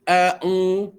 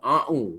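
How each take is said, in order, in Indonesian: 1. Mulainya dengan hamzah biasa. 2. Mulainya dengan bunyi ain yang berat dari tenggorokan. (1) "Dia sepatut bunyi a'u" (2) "Ha dia hamzah sebelum dia pula jadi ain juga. A'u bunyi dia"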